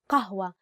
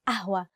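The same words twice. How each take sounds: First: The first sound is a deep q sound. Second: The first sound is a glottal stop. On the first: This is the standard Arabic form. "the actual standard Arabic word is قهوة. ق قهوة with the letter قاف" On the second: This is the easier everyday form. "to make it easier to pronounce, we use the letter a"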